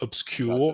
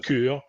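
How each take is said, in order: First: The vowel after 'sc' sounds like 'yoo'. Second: The vowel after 'sc' sounds like 'oo'. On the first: The speaker calls it wrong. "It's not a U. It's not obscure" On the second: The speaker calls it right. "It's obscure"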